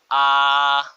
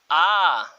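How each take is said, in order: First: The vowel is long with a low pitch. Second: The vowel is long with a high pitch. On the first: "Obviamente que se alargan, pero con tono bajo" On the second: "Se alargan, pero con tono alto"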